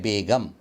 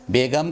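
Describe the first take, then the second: First: बेगम with a plain hard g; correct pronunciation. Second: Second बेगम with a throaty gh, "be-gham"; wrong pronunciation. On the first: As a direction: say बेगम as "be-gam". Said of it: "सही लफ्ज़ है". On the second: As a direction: gargle the g in बेगम like a French r. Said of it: "ये गलत". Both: Shown as a demonstration.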